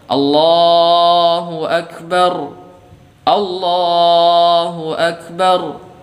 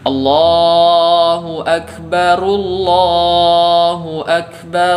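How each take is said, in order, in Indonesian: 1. Ada jeda yang memisahkan frasa-frasanya. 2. Frasa-frasanya tersambung tanpa jeda. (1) "Kalau kita memutus di setiap lafaz takbir" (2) "apabila kita menyambung"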